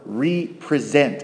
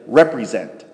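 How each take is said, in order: First: It is split into re plus present. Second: It is said as one ordinary word. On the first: It means making something present again. "I purposely use that word represent" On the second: It means a stand-in for something. "instead of represent"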